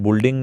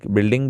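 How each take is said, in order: First: The first vowel is a 'u' sound. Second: The first vowel is an 'i' sound. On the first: The speaker calls it wrong. "बुल्डिंग नहीं बोलते" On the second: The speaker calls it right. "बिल्डिंग बोलते हैं"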